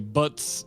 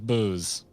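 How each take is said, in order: First: A short vowel, ending in a ts sound. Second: A long oo vowel, ending in a z sound. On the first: "One's literally butts" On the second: "one is booze"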